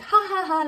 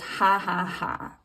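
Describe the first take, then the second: First: The laugh sounds warm and friendly. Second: The laugh sounds snide and mocking.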